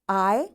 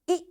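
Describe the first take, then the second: First: The vowel is said with its long sound. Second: The vowel is said with its short sound.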